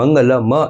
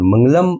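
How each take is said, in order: First: The final m is followed by a vowel. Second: The word ends on a bare m. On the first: "એમ કહીએ તો એમાં સ્વર ભળે છે" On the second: "એમ બોલીએ તો સ્વર ભળતો નથી"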